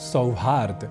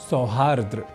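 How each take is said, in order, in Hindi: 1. यह शब्द 'haard' से खत्म होता है, इसमें कोई अतिरिक्त r नहीं है। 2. यह शब्द 'haardra' से खत्म होता है, इसमें अतिरिक्त r है। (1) "बनेगा शब्द सौहार्द" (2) "न कि सौहार्द्र"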